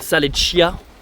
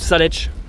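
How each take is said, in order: First: Every letter is pronounced, including the final vowel. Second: The final vowel is dropped from the name. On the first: An outsider is saying the name. "Je prononce toutes les lettres" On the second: A local is saying the name. "ils disent juste Salech. Tu vois, ils disent pas le A"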